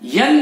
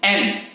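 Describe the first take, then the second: First: It starts with a y glide before the vowel. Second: It starts directly with the vowel, no glide. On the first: The speaker calls it wrong. "यन नहीं" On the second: The speaker calls it right.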